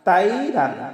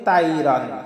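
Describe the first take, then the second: First: The first syllable is said with spread, unrounded lips. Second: The same.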